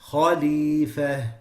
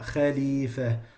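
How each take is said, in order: First: The kh sound is heavy and elevated. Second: The kh sound is light and not elevated. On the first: The speaker calls it right. "you have to say khalifa" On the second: The speaker calls it wrong. "not khalifa"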